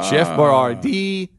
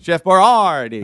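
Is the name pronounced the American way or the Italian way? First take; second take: American; Italian. First: The name is pronounced in an Americanized way. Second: The name is pronounced in an Italian-sounding way. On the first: This is how the name was said in the later ad. "They changed it up" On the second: This is how the name was said in the older ad. "more Italian"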